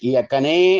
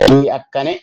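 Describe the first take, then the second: First: The final vowel is held long. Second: The final vowel is short. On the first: The speaker calls it wrong. "ಈ ಅಕ್ಕನೇ ಅಂತ ಇಲ್ಲ, ದೀರ್ಘ ಇಲ್ಲ" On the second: The speaker calls it right. "ಅಲ್ಲಿ ಹ್ರಸ್ವ ಸಾಕಾಗ್ತದೆ"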